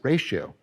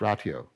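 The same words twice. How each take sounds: First: It is said with the usual English pronunciation. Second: It is said with a Latin-style pronunciation. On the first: "You probably pronounce it ratio" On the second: "that's probably the Latin pronunciation"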